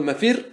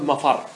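First: مفر said "mafirr", with an i; kasra on مفر. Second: مفر said "mafarr", with an a; fatha on مفر. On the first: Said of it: "ورد بالكسر والفتح". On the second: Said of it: "بالفتح". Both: Shown as a demonstration.

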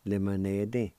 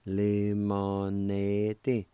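First: Said in the usual way. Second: Very slow, drawn-out Lemonade said lemoneti; teacher slowly modeling Lemonade; slow demo. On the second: Shown as a demonstration. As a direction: stretch Lemonade out. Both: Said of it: "is pronounced like this".

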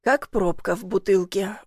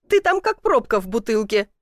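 First: Understated, dry repeat of the jibe; wry echo. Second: Lightly voiced teasing jibe; relentless teasing. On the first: Stuck man musing on her comparison, wry echo. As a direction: echo it back to yourself, unimpressed. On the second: Woman mocking man stuck in chimney, teasing. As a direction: tease him, carried away with amusement. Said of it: "не унималась она". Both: A narrator's reading.

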